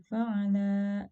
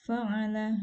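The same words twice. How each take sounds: First: Fa'ala with the vowels dragged out too long; wrong, overlong reading. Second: Fa'ala with every vowel short and crisp; correct short vowels. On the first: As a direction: stretch fa'ala slowly as a mistake. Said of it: "ini dibacanya terlalu panjang". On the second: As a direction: read Fa'ala briskly, no stretching. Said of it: "harusnya dibacanya fa'ala". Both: Shown as a demonstration.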